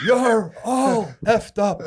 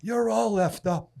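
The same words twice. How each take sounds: First: Laughing through the repeat, slow and loud; can't stop laughing while quoting. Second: Higher, slow put-down, half laughing; mock gruff scorn. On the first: Real, not acted. Retelling Nate's put-down to his friend through laughter. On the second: Imitating Nate telling the young man off. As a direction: hand down the verdict with relish. Nate's verdict, retold.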